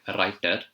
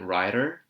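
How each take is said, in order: First: It is said in an Indian accent. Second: It is said in an American accent. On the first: "The Indian accent would be a writer" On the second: "And the American accent would be brilliant writer"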